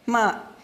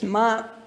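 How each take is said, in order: First: The syllable is said with the fourth tone. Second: The syllable is said with the first tone. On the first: It means to curse or swear. "ma means to curse or swear" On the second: It means mother. "A word for mother is ma"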